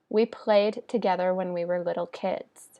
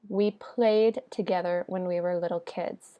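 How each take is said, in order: No difference in how they are said.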